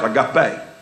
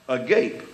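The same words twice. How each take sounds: First: The final E is pronounced. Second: The final E is silent. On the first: The speaker calls it right. "there's a little mark over the E to let you know this pronounced agape" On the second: The speaker calls it wrong. "you know how they're going to pronounce it?"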